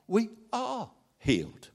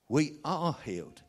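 First: We are healed, the We lifted high and held; stress on present tense. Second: We are healed, softer, leaning on are; repeated affirmation. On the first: Preacher correcting the church's wording, with firm stress. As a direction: insist that it is We are healed, now. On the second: Preacher repeating the truth to the church, quieter. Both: Shown as a demonstration. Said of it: "Don't say we were healed".

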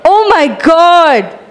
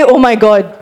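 First: Said in the usual way. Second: Amazed oh my god. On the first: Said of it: "Can you say that?". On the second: Shown as a demonstration. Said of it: "Say it like you say".

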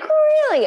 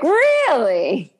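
First: Very high indignant Really?; mock disbelief. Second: Higher, louder Really?; a touch of outrage; mild mock disbelief. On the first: Monica stunned by Joey's remark, very high mock outrage. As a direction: squeak it in outrage. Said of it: "She's like". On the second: Retelling Monica's reaction, mild mock disbelief. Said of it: "I was like".

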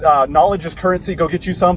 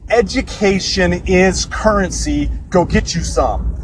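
First: Said in the usual way. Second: Slow, preachy quote delivery; E T the Hip Hop Preacher. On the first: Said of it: "That's a little quote". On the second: Retold or imitated. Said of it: "That's a little quote from E T, the hip hop preacher".

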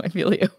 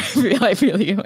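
First: Said in the usual way. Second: Laughing. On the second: Real, not acted.

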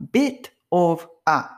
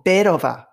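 First: "bit of a" said as separate words, slowly. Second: "bit of a" run together as one word; linked together. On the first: Teacher breaks down the phrase for learners, word by word. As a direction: pronounce "bit", "of", "a" one by one with a clear t. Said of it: "これをbit of a". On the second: Teacher shows learners the linking, words run together. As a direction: join "bit of a" up, the t softened into a flap. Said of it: "くっつけちゃうんですよね". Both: Shown as a demonstration.

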